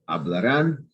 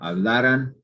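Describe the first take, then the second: First: The stress is on the last syllable. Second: The stress is on the second-to-last syllable. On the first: It is the future tense. "that's future" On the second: It is the past subjunctive. "that's the past subjunctive"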